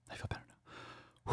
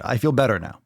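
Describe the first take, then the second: First: Breathy whispered calm-down; mock whisper. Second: Said in the usual way. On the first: Host pretending to calm himself down, whispered. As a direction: whisper it as a joke to yourself. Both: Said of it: "I'm just fucking with you".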